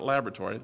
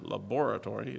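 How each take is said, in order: First: It is said with an American pronunciation. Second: It is said with a British pronunciation. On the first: The speaker calls it wrong. "not laboratory" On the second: The speaker calls it right. "it's in England, you know"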